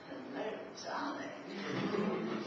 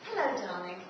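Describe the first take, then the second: First: It sounds strange and weird. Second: It sounds warm and genuine.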